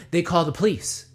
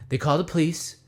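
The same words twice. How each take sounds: The two takes are said the same way.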